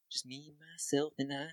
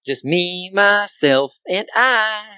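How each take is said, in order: First: Very soft echo of himself. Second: Higher, sing-song self-introduction. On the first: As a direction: let it come back as a faint echo. Soft echo of his own phrase. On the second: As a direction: lift it into a playful sing-song. Sing-song self-introduction, then echoed softly. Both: Pretend.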